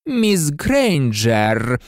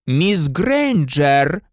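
First: Slow, drawn-out, menacingly controlled address; very slow, controlled teacher's warning; incredibly calm. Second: Slow, drawn-out icy address, pitch raised; frosty, deliberate teacher's reprimand; cold interruption. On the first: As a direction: stretch the name out with icy calm. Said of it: "неймовірно спокійно вимовив Снейп". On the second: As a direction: cut in coldly, stretching the name. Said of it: "холодно перебив її Снейп". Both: A narrator's reading.

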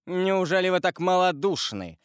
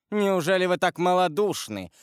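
First: High scornful cry; husband scorning his wife's cowardice; contemptuous exclamation. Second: Louder, more heated repeat; husband pressing his accusation with growing fury; rising heat. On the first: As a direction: sneer it at her. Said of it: "воскликнул с презрением Вильфор". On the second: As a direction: press the charge harder. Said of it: "продолжал Вильфор с возрастающим жаром". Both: A narrator's reading.

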